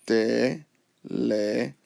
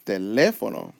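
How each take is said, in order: First: "teléfono" broken into four slow, separate syllables. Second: "teléfono" as one word, pitch jumping up on LE; stress on LE. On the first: Teacher showing four syllables, "teléfono" slowly split with pauses. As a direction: say "teléfono" as te... le... fo... no, pausing between. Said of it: "If you count that, that's four syllables". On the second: Teacher showing why it's accented, voice up on LE in "teléfono". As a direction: punch the second syllable of "teléfono". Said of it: "voice goes up here". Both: Shown as a demonstration.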